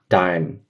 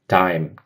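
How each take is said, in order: The two takes are said the same way.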